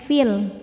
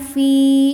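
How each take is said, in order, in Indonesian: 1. Vokal pada fi dibaca pendek. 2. Vokal pada fi dibaca panjang. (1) "fi-nya pendek fil" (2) "kalau berhenti panjang fi dua harokat"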